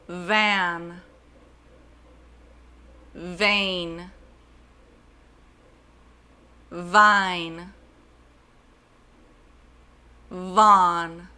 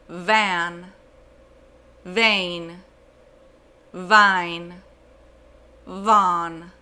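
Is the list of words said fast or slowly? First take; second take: slowly; fast. First: The words are said slowly, one by one. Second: The words are said faster, one after another. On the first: "I will say the list slowly" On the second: "And then I will say them faster"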